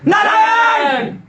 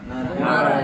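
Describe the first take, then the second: First: The name is cried out urgently and desperately. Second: The name is said calmly and casually. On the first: The speaker calls it right. "ऐसे बोला" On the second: The speaker calls it wrong. "ऐसे नहीं बोला"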